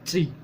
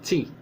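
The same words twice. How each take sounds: No difference in how they are said.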